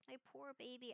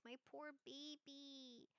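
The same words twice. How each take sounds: First: Said in the usual way. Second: Slow, soft coo to the dog. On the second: Real, not acted. Owner cooing softly to her hurting dog, slow and tender. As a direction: croon it tenderly like to a sick puppy.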